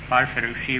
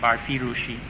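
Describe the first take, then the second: First: The middle i is said without an accent. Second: The middle i is said with an accent. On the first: The speaker calls it right. "the middle I in that should be unaccented" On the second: The speaker calls it wrong. "My edition still has an accent on it. It's supposed to be removed"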